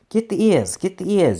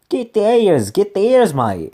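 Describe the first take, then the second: First: It is said in his plain reading voice. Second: It is said in a bad Australian accent.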